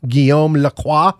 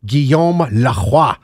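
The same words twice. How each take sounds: First: French pronunciation of Guillaume Lacroix; name read in a French way. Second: Slow, savored French pronunciation of Guillaume Lacroix; hammed-up French name, stretched slowly; exaggerated French. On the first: Real, not acted. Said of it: "Is that the most French name you've ever heard?". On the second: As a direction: draw out Guillaume Lacroix in a showy French accent. Repeats French name, relishing it.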